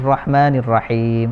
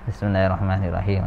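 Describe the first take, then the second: First: It is recited seriously and carefully. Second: It is recited lazily and sleepily.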